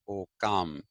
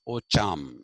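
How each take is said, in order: First: The middle consonant is a 'k' sound. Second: The middle consonant is a 'ch' sound. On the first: This is the reading the K spelling is meant to give. The speaker calls it right. "will pronounce it as Okam" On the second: This is the Italian reading of the double C spelling. The speaker calls it wrong. "If you write C C in Italy, it becomes cha"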